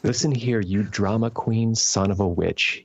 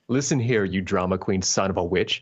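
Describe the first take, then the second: First: It is read slowly. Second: It is read quickly. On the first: The speaker calls it right. "Read it a little bit slower" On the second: The speaker calls it wrong. "You're saying this too fast"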